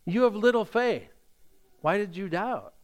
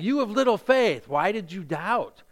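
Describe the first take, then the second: First: It is said in a gentle, encouraging tone. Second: It is said in a harsh, critical tone.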